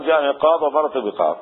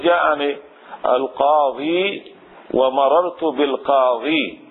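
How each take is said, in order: First: "قاض" and "بقاض" stopped on the consonant; without the ya. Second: "القاضي" and "بالقاضي" slow, long final ee. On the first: Teacher showing forms without the article, without ya. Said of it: "بدون ياء". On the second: Teacher showing forms with the article, with ya. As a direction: stretch the ya ending "القاضي" and "بالقاضي". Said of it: "هكذا بالياء". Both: Shown as a demonstration.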